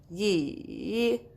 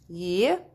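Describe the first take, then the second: First: The word is said with the third tone. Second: The word is said with the rising second tone. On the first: "Third one" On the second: "The second one. Ye. Ye. Go up with your voice"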